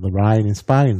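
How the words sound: It is spoken in a Cockney accent. "damit sie nicht mehr Cockney spricht und nicht The Rain in Spain sagt"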